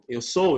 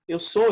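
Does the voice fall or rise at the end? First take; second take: fall; rise. First: The voice falls at the end, like a statement. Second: The voice rises at the end, like a question. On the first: It states a fact. "I am, eu sou, eu estou" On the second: It asks a question. "Eu mudo minha tonalidade de afirmação para interrogativa"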